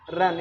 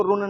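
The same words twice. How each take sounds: First: "रन" with a short uh vowel; correct short vowel. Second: "रुन" with a rounded oo vowel; wrong oo reading. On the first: Teacher giving the correct reading, "रन" with short uh. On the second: Teacher warning against a misreading, "रुन" with oo. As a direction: say "रुन" with U as in "put". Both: Shown as a demonstration. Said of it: "इसको रुन नहीं पढ़ेंगे".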